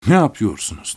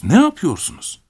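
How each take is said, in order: First: Said in the usual way. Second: Ne yapıyorsunuz jumping much higher, urgent; alarmed. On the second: A narrator's reading. (ne yapıyorsunuz çok daha tiz, telaşla) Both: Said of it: "mırıldandım".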